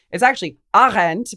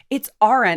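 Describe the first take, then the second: First: Put-on hammy German accent on Arendt; German accent, louder, on Arendt; bad German accent. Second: Arendt with a German lilt; German pronunciation. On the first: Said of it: "forgive my bad German accent". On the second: Retold or imitated. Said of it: "there was somebody who was like".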